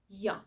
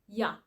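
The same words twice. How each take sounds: First: The vowel is reduced to a short ya sound. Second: The same.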